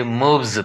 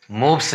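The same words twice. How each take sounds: First: मूव्स with a buzzed z at the end; voiced Z ending. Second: मूव्स with a hissed s at the end; wrong S ending. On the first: Teacher corrects the reading, मूव्स with final z. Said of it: "पढ़ा जाएगा". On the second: Teacher shows the reading to avoid, मूव्स with final s. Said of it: "नहीं पढ़ेंगे". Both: Shown as a demonstration.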